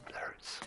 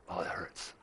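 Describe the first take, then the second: First: Whispered in pain; whispering. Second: Soft pained murmur; quiet groan. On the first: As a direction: breathe it out as a whisper. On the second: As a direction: say it quietly, hurting. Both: Real, not acted.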